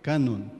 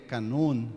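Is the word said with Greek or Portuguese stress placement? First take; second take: Portuguese; Greek. First: The word has the usual Portuguese stress placement. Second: The word has the original Greek stress placement.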